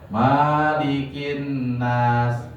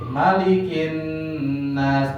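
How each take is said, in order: First: The vowel is drawn out long. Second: The vowel is kept short. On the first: The speaker calls it wrong. "jangan sampai" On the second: The speaker calls it right. "pendek ya"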